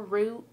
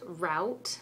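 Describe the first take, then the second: First: "route" rhyming with boot; "route" said "root". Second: "route" rhyming with out; "route" said "rowt"; route as rout. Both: Shown as a demonstration. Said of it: "route, or route".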